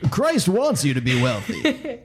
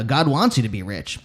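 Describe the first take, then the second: First: It is said in an announcer-like televangelist voice. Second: It is said in a less announcer-like voice.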